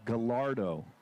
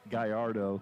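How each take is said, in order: First: The name is pronounced the Italian way. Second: The name is pronounced the Spanish way. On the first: The speaker calls it wrong. "okay, Italian sports car" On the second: The speaker calls it right. "they use Spanish names of bulls, and it is Gallardo"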